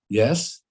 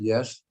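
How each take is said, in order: First: It is said with moderate emphasis. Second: It is said with mild emphasis.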